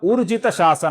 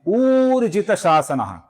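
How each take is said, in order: First: The first vowel is said short. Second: The first vowel is said long. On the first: The speaker calls it wrong. "उ ऐसा ह्रस्व उच्चारण करते हैं, जो कि गलत है" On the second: The speaker calls it right. "उ दीर्घ है और इसका सही उच्चारण है"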